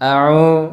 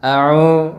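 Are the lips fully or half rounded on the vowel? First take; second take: half; half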